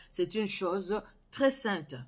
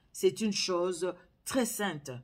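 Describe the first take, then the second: No difference in how they are said.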